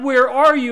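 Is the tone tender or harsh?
harsh. It is said in a harsh, demanding voice.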